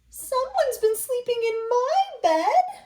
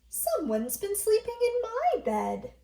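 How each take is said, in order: First: It is said in a tiny, small voice. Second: It is said in a medium-sized voice.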